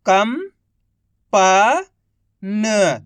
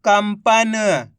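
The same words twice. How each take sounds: First: Each syllable drawn out very slowly; slow syllable-by-syllable reading. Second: Said in the usual way. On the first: Shown as a demonstration. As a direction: sound out सुरंग slowly as सु-रं-ग, one sound at a time. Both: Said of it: "एक अक्षर का उच्चारण करके".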